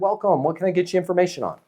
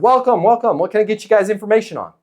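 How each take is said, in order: First: It is said in a calm, relaxed way. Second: It is said in a pushy, aggressive way.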